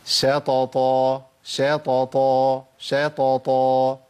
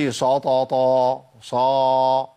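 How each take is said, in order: First: شططا with a light "sha" before heavy t; thin shin. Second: شططا with a heavy, dark "sho" opening; thickened shin. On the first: Teacher modelling the example, thin shin in شططا. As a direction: keep the sh of شططا thin, reciting slowly. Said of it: "طب نجيب مثال". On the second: Teacher showing what not to say, heavy shin in شططا. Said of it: "هو تفخيم". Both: Shown as a demonstration.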